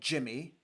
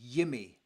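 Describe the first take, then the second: First: The name begins with a J sound. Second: The name begins with a Y sound. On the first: The speaker calls it wrong. "It is not Jimmy" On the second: The speaker calls it right. "it is Yimmy"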